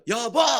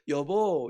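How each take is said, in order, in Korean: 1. 큰 소리로 힘차게 외칩니다. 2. 부드럽고 다정하게 말합니다. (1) "여보 막 이렇게 불러요" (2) "이렇게 사랑스럽게 여보 이렇게"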